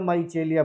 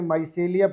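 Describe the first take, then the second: First: The middle consonant is a 'ch' sound. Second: The middle consonant is an 's' sound. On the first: "या माइचेलिया पढ़ रहे हो" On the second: "आप इसे माइसेलिया पढ़ रहे हो"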